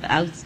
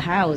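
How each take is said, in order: First: The word starts without an h sound. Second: The word starts with an h sound. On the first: "the French people, they don't pronounce the letter H" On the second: "So it's a house"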